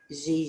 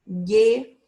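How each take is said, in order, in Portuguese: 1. A consoante soa como J. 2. A consoante tem som de G duro. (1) "A gente não colocou" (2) "agora a gente está falando com o mesmo som"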